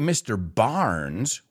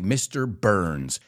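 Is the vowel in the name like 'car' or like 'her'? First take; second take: car; her. First: The name's vowel sounds like the vowel in 'car'. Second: The name's vowel sounds like the vowel in 'her'. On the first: The speaker calls it wrong. "we don't say Mr. Barnes" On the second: The speaker calls it right. "we say Mr. Burns"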